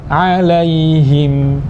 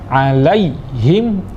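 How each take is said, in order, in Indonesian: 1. Peralihan ke ai itu halus dan lembut. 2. Peralihan ke ai itu mendadak dan kasar. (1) "Yang benar" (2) "ini terlalu kasar"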